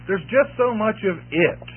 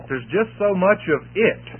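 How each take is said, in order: First: "just" hit hardest, falling close; emphasis on "just", "it" unstressed; stress on just. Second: "it" lifted and rising at the end; stress on it. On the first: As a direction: punch "just", let "it" fall away. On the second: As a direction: lean on the final "it". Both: Shown as a demonstration. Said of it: "put the emphasis on the word "it".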